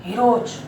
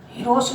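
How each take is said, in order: First: "हीरोज" with voiced j at the end; final J sound. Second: Said in the usual way. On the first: Shown as a demonstration. Teacher correcting heroes for students, final J sound. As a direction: say "हीरोज" as hee-roj, not hee-ros. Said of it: "क्या बोलते हैं?". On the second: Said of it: "हीरोज नहीं बोलते".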